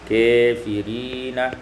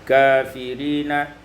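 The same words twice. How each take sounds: First: The vowel after k leans toward 'e'. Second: The vowel after k is an open 'a'.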